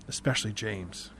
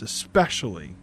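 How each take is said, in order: First: "especially James" dropped much lower and softer; a quiet, knowing "especially James"; hushed repeat. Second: "especially" said firmly at normal level, falling; "especially" leaned on before the name; pointed emphasis. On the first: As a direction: sink the repeat into a confiding hush. Joy repeats it more quietly. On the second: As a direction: land "especially" as a warning. Joy stressing who not to tell. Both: Retold or imitated.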